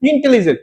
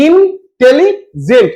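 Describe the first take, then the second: First: Said in the usual way. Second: intelligent slowly in three raised, separate beats; syllable by syllable. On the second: Shown as a demonstration. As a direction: say ইন, tele, gent with a stop after each. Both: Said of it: "তিনবার থামতে হচ্ছে".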